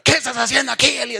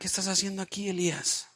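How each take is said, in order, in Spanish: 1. Se dice con un tono duro, de regaño. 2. Se dice con un tono suave, de pregunta. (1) "yo no veo a Dios así" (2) "en vez de eso le pregunta"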